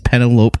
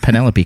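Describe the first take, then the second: First: The name is said letter by letter as spelled. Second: The name is said in its usual way. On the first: The speaker calls it wrong. "She pronounces them like they're spelled in the magazine" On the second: The speaker calls it right. "it's not Penelope Cruz"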